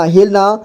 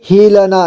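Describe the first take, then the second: First: Said in the usual way. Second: हिलना as हि-ल-ना; syllable by syllable. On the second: Shown as a demonstration. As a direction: sound out हिलना with "la" on its own. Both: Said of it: "एक ही बार में पढ़ेंगे".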